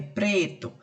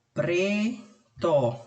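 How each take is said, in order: First: Said in the usual way. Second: "pre-to" broken into two held syllables. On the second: Shown as a demonstration. Teacher demonstrating syllable separation to pupils, "pre-to" in separate syllables. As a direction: say "pre-to" with a clear pause between pre and to. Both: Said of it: "Separação de sílabas".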